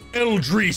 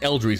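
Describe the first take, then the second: First: The word is said loudly with a booming echo. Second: The word is said quietly and plainly. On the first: The speaker calls it right. "the sound is is like echoing and it's a boom" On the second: The speaker calls it wrong. "It's not"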